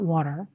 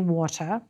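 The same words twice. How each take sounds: First: It is said in an American accent. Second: It is said in a British accent. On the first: "not water" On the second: "pronunciation norms for international English learners are still almost always British"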